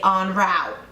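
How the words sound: It is said with an American pronunciation. "But then Americans say en route"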